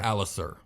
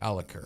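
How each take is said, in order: First: The middle consonant is a soft s sound. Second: The middle consonant is a hard k sound.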